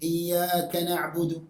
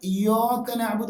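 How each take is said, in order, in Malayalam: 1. വ്യഞ്ജനങ്ങൾ മെലിഞ്ഞും കനമില്ലാതെയും ഉച്ചരിക്കുന്നു. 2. വ്യഞ്ജനങ്ങൾ കനപ്പിച്ച് ഉച്ചരിക്കുന്നു. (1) "ഇങ്ങനെ ശരി" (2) "വായിക്കാൻ പാടില്ല"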